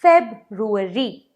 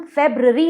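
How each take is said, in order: First: फेब्रुअरी said slowly, "feb-roo-a-ree"; "फेब्रुअरी" slow, every syllable sounded; correct February. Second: फेब्रुअरी squeezed to "feb-ree", the r-oo dropped; "फेब्रुअरी" in three syllables, no roo; wrong February. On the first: Teacher slowly gives viewers the right "फेब्रुअरी". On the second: Teacher shows viewers the wrong "फेब्रुअरी", syllable dropped. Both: Shown as a demonstration. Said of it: "नहीं कहते हैं".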